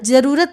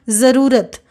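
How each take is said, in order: First: The word begins with a j sound. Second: The word begins with a z sound. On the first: The speaker calls it wrong. "नहीं पढ़ेंगे" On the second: The speaker calls it right. "इसको पढ़ेंगे"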